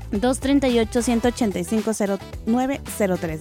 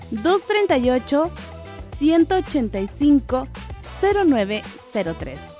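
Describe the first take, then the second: First: The number is said at normal speed. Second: The number is said slowly.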